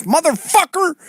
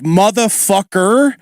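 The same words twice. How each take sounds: First: High-pitched Josh Denny voice; Josh Denny impression. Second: Slow drawn-out Philly LA hybrid accent. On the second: Shown as a demonstration. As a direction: stretch it slowly in a Philly LA accent. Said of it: "So I'll say".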